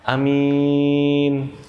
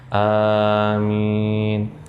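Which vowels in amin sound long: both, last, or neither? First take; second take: last; both. First: Only the second vowel is drawn out. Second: Both the first and second vowels are drawn out. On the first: It means an honest person. The speaker calls it wrong. "yang panjang itu di belakang" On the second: It means grant our prayer. The speaker calls it right. "Depannya agak panjang, di belakangnya agak panjang"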